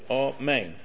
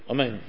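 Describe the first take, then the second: First: The first vowel is full and distinct. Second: The first vowel is clipped and rushed. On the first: The speaker calls it right. "You say amen. It's not a chataf" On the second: The speaker calls it wrong. "You don't say amen"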